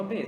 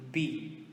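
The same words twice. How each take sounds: First: B said as "beh"; Portuguese letter B. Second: B said as a long "bee"; English letter B. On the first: Teacher showing the Portuguese name of the letter, B as "beh". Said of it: "a gente fala B". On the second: Teacher giving the English name of the letter, B as "bee". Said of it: "In English is going to be B". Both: Shown as a demonstration.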